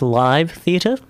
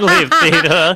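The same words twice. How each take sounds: First: Live is said with a long 'eye' vowel. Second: Live is said with a short 'ih' vowel. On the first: The speaker calls it right. "I think it's live theatre" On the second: The speaker calls it wrong. "Rather than live theatre"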